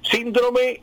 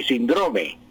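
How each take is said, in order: First: High, drawn-out "síndrome", SIN-dro-me; slow "síndrome" with weight on the first syllable; first-syllable stress. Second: Slow "síndrome" said sin-DRO-me; drawn-out "síndrome" with weight on the middle syllable; middle stress. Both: Shown as a demonstration. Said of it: "hay doble acentuación".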